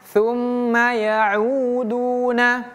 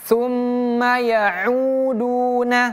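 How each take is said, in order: Both takes have the same delivery.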